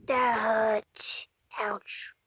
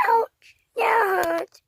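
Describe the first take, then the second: First: A tiny, hurt whisper; breathy whispered ouch. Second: Higher, slow crying complaint; slow, crying, higher ouch. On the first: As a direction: whisper it, much softer. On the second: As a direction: wail it like a hurt little kid. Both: Pretend. Pretend hurt toy character.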